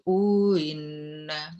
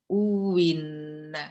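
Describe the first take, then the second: First: The second hamza is softened, with no w. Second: The second hamza becomes a clear w sound. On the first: "kalau uinna itu tasih" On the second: "uwinna itu wawu"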